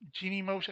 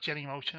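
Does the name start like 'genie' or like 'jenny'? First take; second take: genie; jenny. First: The first syllable sounds like 'genie', long vowel. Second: The first syllable sounds like 'jenny', short vowel. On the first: "I think it's called Genie Motion" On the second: "I call it Jenny Motion anyway. I'm probably pronouncing it wrong"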